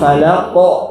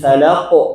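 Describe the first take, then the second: First: An extra vowel is added after the final q. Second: The final q is released without an added vowel. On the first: The speaker calls it wrong. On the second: The speaker calls it right.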